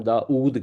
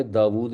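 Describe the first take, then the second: First: داؤد as daa-OOD; Urdu pronunciation. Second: داود as daa-WOOD; original Arabic pronunciation. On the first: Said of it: "ہم داؤد کہتے ہیں". (داؤد کو واو کے بغیر "دا-اُود") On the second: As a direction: sound the w/v between the vowels of داود. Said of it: "Urdu میں داود نہیں کہتے". (داود کو واو کی آواز سے "دا-وُود") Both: Shown as a demonstration.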